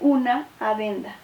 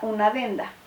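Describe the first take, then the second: First: The two vowels stay in separate syllables. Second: The two vowels merge into one syllable. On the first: The speaker calls it right. "pronunciada con el necesario hiato" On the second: The speaker calls it wrong. "con sinalefa"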